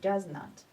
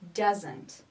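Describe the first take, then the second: First: It is said as two full separate words. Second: It is said as one contracted word. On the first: "the normal uh, form" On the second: "the pronunciation of the contraction"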